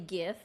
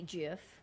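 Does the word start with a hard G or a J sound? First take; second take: hard G; J sound. First: The word starts with a hard G sound. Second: The word starts with a J sound. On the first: The speaker calls it right. "does make more sense to say GIF because it's G I F" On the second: The speaker calls it wrong. "rather than to pronounce the G as a J"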